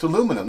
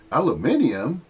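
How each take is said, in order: First: Aluminum said the American way, four syllables a-LOO-mi-num; American pronunciation. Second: Aluminium said the British way, five syllables al-u-MIN-i-um; British pronunciation. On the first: Correcting the British, saying aluminum as a-LOO-mi-num. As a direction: stress LOO in aluminum, a-LOO-min-um. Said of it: "there's no two I's in aluminum". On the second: Mocking the British at work with Aluminium, said al-u-MIN-i-um. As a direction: stress the MIN in Aluminium, al-yoo-MIN-ee-um. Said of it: "not aluminium". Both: Shown as a demonstration.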